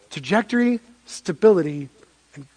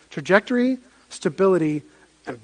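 No difference in how they are said.

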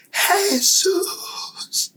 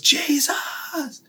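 First: High, ringing cry of the name; crowd cry. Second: "Jesus" said in English, whispered. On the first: Retold or imitated. Forty-five thousand men crying out together, high. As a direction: call it out as one voice. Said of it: "todos gritaron". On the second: Shown as a demonstration. The same name in English, softly whispered. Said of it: "En inglés".

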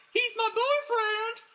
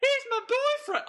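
First: Put-on high-pitched, slow shriek of a girlfriend; impression of Beverly. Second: High-pitched shriek with a southern twang; Beverly impression again. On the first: Podcaster imitating Beverly shouting to save the duck, high-pitched. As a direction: shriek it like a southern belle defending her man. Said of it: "that was my impression of her right there". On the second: Cohost asks for a repeat, podcaster shrieks Beverly's line in a high voice. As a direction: squeal it out, southern belle style. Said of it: "Please, please do that one more time".

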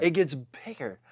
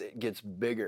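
First: "It gets bigger" said again at full voice with a falling end; firm restatement to the listener; restated. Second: Softer, dropped low "bigger"; quietly landing the point. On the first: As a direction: repeat it plainly and firmly for emphasis. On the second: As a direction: let it sink, almost under the breath. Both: Shown as a demonstration. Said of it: "repeats the point".

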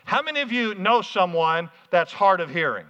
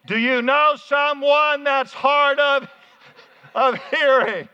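First: Said in the usual way. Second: Loud, high and drawn-out; loud, for the hard-of-hearing. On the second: Shown as a demonstration. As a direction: shout it slowly as if to someone hard of hearing. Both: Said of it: "let me say it this way".

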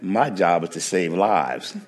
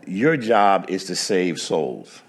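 First: My hit with a falling stress against your. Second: Your said with slow falling weight, contrasting jobs; stress on your. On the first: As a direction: punch My to answer the other job. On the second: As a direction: lean slowly on your, then fall. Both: Retold or imitated. Trooper contrasts his job.

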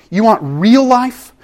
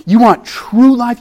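First: Real stressed, slow and raised; stressed build. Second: True stressed, slow and a step higher; stressed build. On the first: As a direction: lean slowly on the word real. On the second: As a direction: lean slowly on the word true. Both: Shown as a demonstration. Preacher pressing the congregation, slow and emphatic. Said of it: "repeated rhetorical build".

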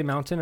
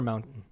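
First: MOUNTAIN with an audible T, "moun-tin"; pronounced T. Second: MOUNTAIN with the T swallowed. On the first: Host asking friend which way, MOUNTAIN with a clear T. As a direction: sound out the T in MOUNTAIN. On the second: Host offering friend the second option, MOUNTAIN with swallowed T. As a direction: drop the T in MOUNTAIN, catching it in the throat. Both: Shown as a demonstration. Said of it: "Do you say mountain or mountain?".

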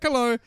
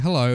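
First: Hello pitched up high; higher-pitched reply. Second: Said in the usual way. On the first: Retold or imitated. Celebrity turns and greets the fan back, higher-pitched hello. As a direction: lightly mimic a high-voiced hello back.

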